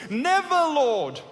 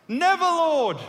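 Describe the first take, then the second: First: Slow, loud, high protest; rebuking cry. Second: High, loud protesting cry; loud rebuke. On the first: Peter rebuking Jesus, slow loud protest. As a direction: drag it out as a rebuke. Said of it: "Began to rebuke Jesus". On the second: Peter refusing Jesus, loud high cry. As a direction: throw the words out in refusal. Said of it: "Have you ever said that?". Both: Acted.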